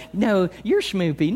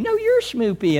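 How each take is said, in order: First: Put-on slow, cooing baby talk; cooing lover. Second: Put-on higher, playful baby talk back; cooing lover.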